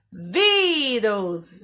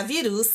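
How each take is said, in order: First: "Vírus" with a long, open stressed VÍ; VÍ-rus, leaning hard on the I. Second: "virus" mispronounced as vi-RÚS; short "vi", stressed final "rus". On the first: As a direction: draw out the first syllable of "Vírus". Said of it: "Mais forte, mais aberto". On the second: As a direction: move the stress of "virus" to the last syllable. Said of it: "se eu não usasse o acento, iria ficar". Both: Shown as a demonstration.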